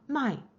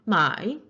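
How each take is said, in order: First: The syllable is said with the fourth tone. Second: The syllable is said with the third tone. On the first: It means to sell. "my 팔다" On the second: It means to buy. "my 사다"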